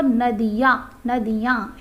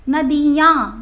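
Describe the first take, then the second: First: नदियाँ said carefully, the right way; correct pronunciation. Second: नदियाँ said loud and falling, the wrong way; the incorrect नदियाँ, stressed; wrong pronunciation. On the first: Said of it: "ऐसे बोलते हैं". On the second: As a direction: show the mistaken नदियाँ. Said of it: "नदियाँ नहीं होता". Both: Shown as a demonstration.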